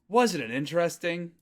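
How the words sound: It sounds like an impressed, exclaiming remark. The speaker expects the other person to agree. "That would be a ne"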